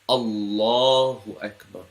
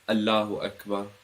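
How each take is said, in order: First: The 'l' in Allah is heavy and full. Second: The 'l' in Allah is light and thin. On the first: The speaker calls it right. "Put more emphasis on it" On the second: The speaker calls it wrong. "It's not Allahu Akbar"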